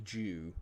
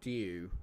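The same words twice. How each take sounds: First: "Jew" with a full j at the start; j-sound pronunciation. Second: "Dew" with a d and a y-glide; careful pronunciation. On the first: Showing what dew sounds like, "Jew" with a j. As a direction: say "Jew" as "joo". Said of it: "But it's like Jew". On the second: Testing how it is said, "Dew" as "dyoo". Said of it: "Is that how you say it?". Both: Shown as a demonstration.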